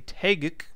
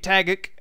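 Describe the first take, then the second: First: The name is said in its standard pronunciation. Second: The name is said in a casual, personal pronunciation. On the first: This is the official way of saying it. The speaker calls it right. "as it is properly pronounced" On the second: This is the speaker's habitual way of saying it. The speaker calls it wrong. "as I like to say"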